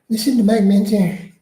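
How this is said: It is read in a put-on, imitated voice.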